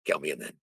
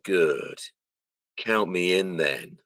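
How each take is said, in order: First: Quicker, low and softer; quick throwaway delivery. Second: Slow, drawn-out imitation of a line reading; slow delivery. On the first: Shown as a demonstration. Showing how he voiced the line himself, offhand and quick. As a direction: toss it off lightly in one go. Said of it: "just the way I instinctively did it". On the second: Imitating how the mocap actor said the line, slow. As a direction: stretch each word out unhurriedly. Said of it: "a lot more slower".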